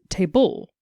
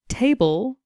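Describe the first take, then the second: First: The stress is on the second syllable. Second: The stress is on the first syllable.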